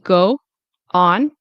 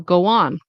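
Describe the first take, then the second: First: The two words are said separately, without linking. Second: A light W sound links the two words. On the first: The speaker calls it wrong. "instead of saying go on, like two separate words" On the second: The speaker calls it right. "there will be like a little W that shows up between here"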